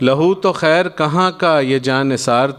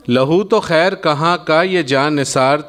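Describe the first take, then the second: No difference in how they are said.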